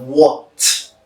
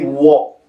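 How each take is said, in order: First: "what" with a released final t; uttered completely. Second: "what" with the final t dropped; incomplete sound. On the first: Teacher showing full enunciation, "what" completed with its t. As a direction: finish "what" on a crisp, audible t. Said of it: "instead of". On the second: Teacher showing the usual habit, "what" left unfinished without its t. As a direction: cut off "what" before its t, as "wha". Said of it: "We usually say". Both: Shown as a demonstration.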